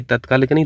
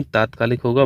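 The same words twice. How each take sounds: First: तत्कालिक with short first vowel, tat-kaalik; wrong form. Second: तात्कालिक with long first vowel, taat-kaalik; correct form. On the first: Teacher rejecting a misspelling, short tat in तत्कालिक. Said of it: "ये तत्कालिक नहीं". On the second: Teacher correcting the spelling, long taat in तात्कालिक. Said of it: "बढ़ाता use होगा". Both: Shown as a demonstration.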